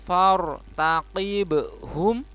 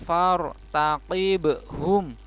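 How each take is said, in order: No difference in how they are said.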